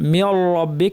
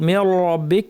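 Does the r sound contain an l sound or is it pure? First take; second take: l mixed in; l mixed in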